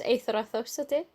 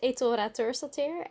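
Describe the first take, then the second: First: The name is said with Icelandic pronunciation. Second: The name is said with Dutch pronunciation. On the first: It is the original form of the name. "the Icelandic version is" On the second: It is easier for Dutch people to say. "the Dutch version is"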